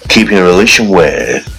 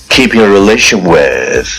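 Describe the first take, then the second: The two takes are said the same way.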